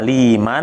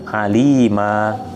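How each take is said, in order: First: The word ends with an n sound. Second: The word ends with a long a vowel. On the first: The reading continues without stopping. "dibacanya aliman yang pertama" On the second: The reader stops on this word. "Jika sukun dibaca alima"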